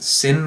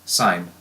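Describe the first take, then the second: First: The vowel is short, rhyming with 'tin'. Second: The vowel is long, rhyming with 'fine'. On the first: The speaker calls it wrong. "Please don't pronounce it sin" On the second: The speaker calls it right. "It's still pronounced sine"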